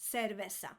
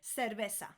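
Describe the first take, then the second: Both takes have the same delivery.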